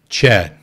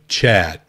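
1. A palavra é pronunciada com pronúncia inglesa. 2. A palavra é pronunciada com pronúncia inglesa.

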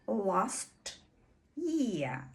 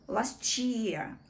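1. Звуки t і y вимовляються окремо. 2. Звуки t і y зливаються в ч. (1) "у стандартній вимові ми маємо почути last year" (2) "В швидкій англійській мові ці слова поєднуються і вимова змінює звук «ч»"

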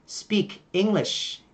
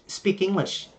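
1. Hai từ được nói tách rời, không nối âm. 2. Âm k nối thẳng sang English.

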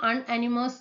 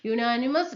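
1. വാക്ക് 'un' ശബ്ദത്തിലാണ് തുടങ്ങുന്നത്. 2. വാക്ക് 'yoo' ശബ്ദത്തിലാണ് തുടങ്ങുന്നത്. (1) "നമ്മൾ ചിലപ്പോൾ അൺഅനിമസ് എന്നൊക്കെ വായിക്കുക" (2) "യു യു ആണ് വന്നിരുന്നത്"

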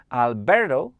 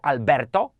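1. Imię jest wypowiedziane z amerykańskim akcentem. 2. Imię jest wypowiedziane z hiszpańskim akcentem. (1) "teraz wymawiłem to bardziej po amerykańsku" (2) "to wtedy jest bardziej w języku hiszpańskim"

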